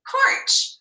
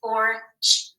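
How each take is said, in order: First: Said in the usual way. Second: "Porch" split into separate sounds, p, or, ch; segmented phonics demo of "Porch"; sounded out. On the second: Shown as a demonstration. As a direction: tap out each sound of "Porch" with gaps, louder. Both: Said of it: "Let's tap it".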